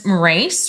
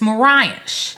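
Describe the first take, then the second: First: The name ends with a plain 's' sound. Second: The name ends with an 'sh' sound. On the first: The speaker calls it wrong. "So I thought it was Morace or something" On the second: The speaker calls it right. "but it's Moraish. Is how it's pronounced"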